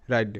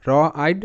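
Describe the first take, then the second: First: Said in the usual way. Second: "র আইড" as two separate sounds, র then আইড; sounded out in parts. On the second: Shown as a demonstration. Teacher showing beginners the R sound, "র আইড" sounded out. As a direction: hold র apart from আইড. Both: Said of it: "আরতে র".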